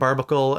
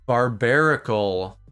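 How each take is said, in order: First: The name is said with three syllables. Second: The name is said with four syllables. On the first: The speaker calls it wrong. "So I was wrong" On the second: The speaker calls it right. "It's like Barbarian again"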